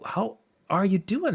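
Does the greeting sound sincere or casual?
sincere. It sounds sincere and caring.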